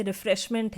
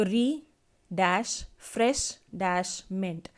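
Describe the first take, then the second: First: Said in the usual way. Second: "री dash fresh dash meant" slowly, a pause after each part; split into syllables. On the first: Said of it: "एक example मैं दिखा देती हूँ". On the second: Shown as a demonstration. Teacher showing students syllable division, "री dash fresh dash meant" split slowly. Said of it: "ऐसे divide करके hyphen में दिखा देंगे".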